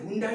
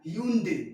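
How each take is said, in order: First: It starts 'hun' and ends with an 'eye' sound. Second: It starts 'hyun' and ends with an 'ay' sound. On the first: The speaker calls it wrong. "तो इसे हुंडाई नहीं पढ़" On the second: The speaker calls it right. "इसे पढ़ते हैं ह्यूंडे"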